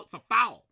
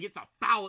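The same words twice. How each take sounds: First: Retold scream. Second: Said in the usual way. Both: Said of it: "I'm screaming".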